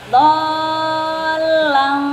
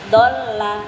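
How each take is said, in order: First: The first vowel is held long. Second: The first vowel is short. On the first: The speaker calls it right. "karena ada mat do, panjangkan dulu" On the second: The speaker calls it wrong. "kalau disingkatnya ibaratnya gini"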